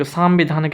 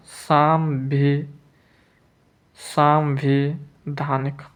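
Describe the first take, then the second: First: Said in the usual way. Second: सांविधानिक slowly in pieces, सां-वि-धानिक; slow dictation. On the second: Shown as a demonstration. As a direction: break off after सांवि, then give all of सांविधानिक. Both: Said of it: "सांविधानिक कैसे लिखेंगे".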